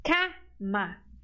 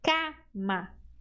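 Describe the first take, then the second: Both takes have the same delivery.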